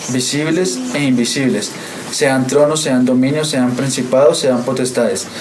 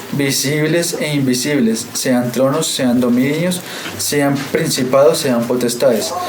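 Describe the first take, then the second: The two takes are said the same way.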